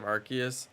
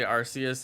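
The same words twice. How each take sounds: First: The first part sounds like the word arc. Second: The first part does not sound like arc. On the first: The speaker calls it right. "it's like an arc" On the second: The speaker calls it wrong. "people say Arceus instead of"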